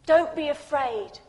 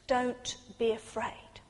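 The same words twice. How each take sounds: First: Said in the usual way. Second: Softer, slow and gentle; hushed comfort; soft reassurance. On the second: Acted. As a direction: say it like a hand on the shoulder. Repeated Jesus line, soft take.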